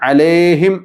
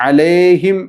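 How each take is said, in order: No difference in how they are said.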